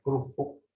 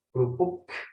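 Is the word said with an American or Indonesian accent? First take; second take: Indonesian; American. First: It is said in an Indonesian accent. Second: It is said in an American accent, final sound popped. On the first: "Bagaimana orang Indonesia, orang Jawa mengatakan" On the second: "orang Amerika mengatakan kata yang sama akan berbeda ... meletup"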